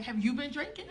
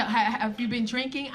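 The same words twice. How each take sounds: First: YOU stressed, rising at the end of drinking; softer echo with YOU picked out and a questioning lift; question turned back. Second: Said in the usual way. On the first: Retold or imitated. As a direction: throw it back softly, leaning on YOU. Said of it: "I was like". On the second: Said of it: "She said".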